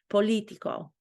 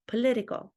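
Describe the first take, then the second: First: It is said with a Romanian accent. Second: It is said with an American accent. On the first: "I'm saying it the way that I want to say it" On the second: "if I were to pretend that I can say it with an American accent"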